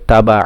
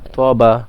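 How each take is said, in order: First: The first consonant is a light, thin t. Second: The first consonant is a heavy, emphatic t. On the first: The speaker calls it wrong. "অনেকে তাবা পড়ে" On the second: The speaker calls it right. "এখানে ত হবে ... হুরুফ মুস্তারিয়ার একটা হুরুফ"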